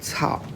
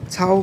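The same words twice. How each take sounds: First: The syllable is said with a falling tone. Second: The syllable is said with a high level tone. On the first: "fourth tone Cao" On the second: "As you just heard, this character can also be pronounced in the first tone"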